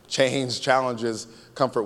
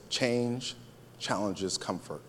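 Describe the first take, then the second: First: "Change challenges comfort" in full voice, slowly, unbroken; slow emphatic repeat. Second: "Change", a pause, then "challenges comfort" low and soft; hushed key point. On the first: Preacher repeating the key line for the congregation, slow and firm. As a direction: stretch "Change challenges" slowly at normal volume. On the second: Preacher asking congregation to catch this, hushed and deliberate. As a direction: drop "challenges comfort" softly after a pause. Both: Shown as a demonstration.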